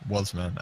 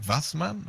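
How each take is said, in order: First: The name is pronounced the English way. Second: The name is pronounced the German way.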